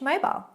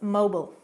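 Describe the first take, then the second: First: It is said with a British pronunciation. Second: It is said with an American pronunciation. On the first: "British English" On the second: "In American English, it's mobile"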